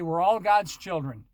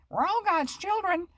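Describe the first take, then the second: First: It is said in a normal voice. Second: It is said in an old lady's squeaky voice.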